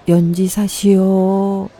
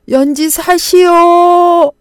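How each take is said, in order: First: It is mumbled in a very quiet voice. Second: It is shouted in a loud voice. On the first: The speaker is timid and afraid to be heard. The speaker calls it wrong. "모기만한 소리로 웅얼거렸습니다" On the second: The speaker is calling out so everyone hears. The speaker calls it right. "큰 소리로 외쳤습니다"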